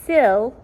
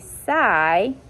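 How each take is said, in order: First: The vowel is short, like in 'sit'. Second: The vowel is long, like the word 'eye'. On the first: The speaker calls it right. "a short sound, which would be make an I" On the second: The speaker calls it wrong. "that would make my first syllable open"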